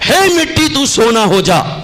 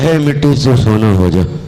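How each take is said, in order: First: It is said loudly with lots of energy. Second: It is said flatly with little energy. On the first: The person is eager and enthusiastic. "पहले दिन बड़े जोश में बोल रहा था" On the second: The person has lost enthusiasm. "दसवें दिन जब मंत्र पढ़ने गया तो ऐसे पढ़ रहा था"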